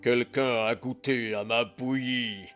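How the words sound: It is said in a big gruff voice.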